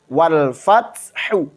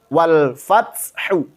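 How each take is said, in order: No difference in how they are said.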